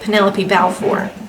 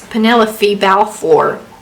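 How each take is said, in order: First: Penelope ends with a plain 'pee' sound. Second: Penelope ends with a 'fee' sound. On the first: The speaker calls it wrong. "apparently I would say" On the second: The speaker calls it right. "According to this pronunciation chart, it's"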